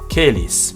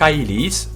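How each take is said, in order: First: The first vowel is a single 'air' vowel. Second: The first vowel is an 'eye' diphthong. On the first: This is the medieval pronunciation. "the I sound turned into an air sound" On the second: This is the classical pronunciation. "the A E is pronounced I"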